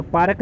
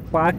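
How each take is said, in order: First: पार्क with the r sounded, a touch louder; the mistaken पार्क, r pronounced; wrong rolled r. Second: पार्क said as paak with the r dropped; silent r. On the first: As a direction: say पार्क with a clear r before the k. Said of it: "नहीं बोलेंगे". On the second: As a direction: say पार्क without any r sound. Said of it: "ही रहेगा". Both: Shown as a demonstration.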